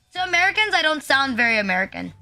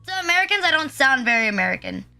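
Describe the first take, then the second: No difference in how they are said.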